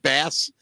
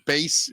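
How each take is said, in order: First: The vowel is short, rhyming with pass. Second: The vowel is long, rhyming with face. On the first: It names the fish. The speaker calls it wrong. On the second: It names the instrument. The speaker calls it right.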